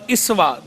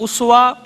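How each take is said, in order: First: The word begins with an 'i' vowel. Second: The word begins with an 'u' vowel. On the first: "हमजा की जेर के साथ भी" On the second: "पेश के साथ भी पढ़ा जाता है हमजा की"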